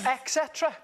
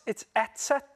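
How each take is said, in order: First: The first word has an X-like 'ek' sound. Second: The first word has a plain 'et' sound. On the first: The speaker calls it wrong. "I say it like you" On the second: The speaker calls it right. "But it's not. It's it's et cetera"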